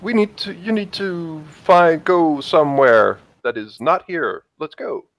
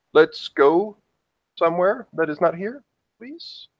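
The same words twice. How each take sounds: First: Higher, insistent plea to leave; urgent, falling at the ends; urging him away. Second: High, rising, tentative plea; polite plea ending high and small; pleading to leave. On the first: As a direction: start high and press him to go. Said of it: "reason for her to say". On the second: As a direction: coax him, each phrase lifting upward. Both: Acted.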